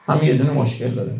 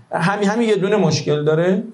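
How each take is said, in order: First: Said in the usual way. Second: همین یه دونه مشکل داره higher with a rising tune on یه; rising emphasis. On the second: Acted. Preacher mocking the excuse about eulogists, higher and rising. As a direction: push it up, rising on یه. Preacher mocks listener's objection.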